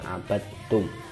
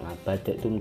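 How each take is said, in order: First: The d runs straight into the t. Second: An extra vowel separates the d and the t. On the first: The speaker calls it right. "langsung ketak bacanya" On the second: The speaker calls it wrong. "enggak ngabadatum"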